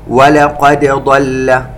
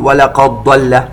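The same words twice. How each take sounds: First: The d sound is bounced and clearly separate. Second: The d sound merges into the following consonant. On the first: The speaker calls it right. "ننتبه هنا إخواني إلى قلقلة الدال وإظهارها وعدم إدغامها في الضاد" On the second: The speaker calls it wrong. "ولا نقول ولقد ضل لحفص الإظهار"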